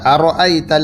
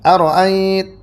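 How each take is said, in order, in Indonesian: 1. Hamzah kedua dibaca penuh. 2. Hamzah kedua diringankan dan cepat. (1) "seperti biasa" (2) "dibacanya dengan tashil, dipercepat"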